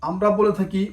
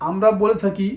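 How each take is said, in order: Both takes have the same delivery.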